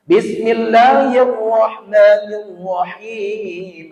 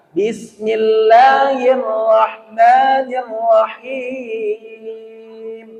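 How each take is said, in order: First: "Bismillahirrahmanirrahim" slow, with the r's pushed; wrong recitation demo. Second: "Bismillahirrahmanirrahim" chanted very slowly; chanted, draw "Bismillahirrahmanirrahim" out melodically, drawn back; correct chanted basmalah. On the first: Teacher recites the wrong version of basmalah. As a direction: recite it slowly with a wrongly heavy r. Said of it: "Itu salah". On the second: Teacher chants the corrected basmalah. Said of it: "Jadi tariknya belakang". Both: Shown as a demonstration.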